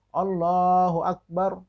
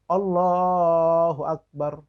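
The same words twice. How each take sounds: No difference in how they are said.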